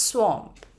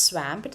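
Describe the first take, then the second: First: "swamp" with a rounded aw vowel, "swomp"; "swamp" said like "swomp", not like "lamp"; correctly pronounced swamp. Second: "swamp" rhyming with "lamp"; wrong "swamp", vowel as in "stamp"; mispronounced swamp. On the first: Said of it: "it is swamp". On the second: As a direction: say "swamp" with the short a of "cat". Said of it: "It is not swamp". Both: Shown as a demonstration.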